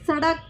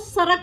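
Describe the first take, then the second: First: The middle consonant is a retroflex flap sound. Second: The middle consonant is a plain r sound. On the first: The speaker calls it right. "इनका उच्चारण अलग होता है" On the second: The speaker calls it wrong. "कुछ जो लोग होते हैं वो सड़क को सरक बोलते हैं"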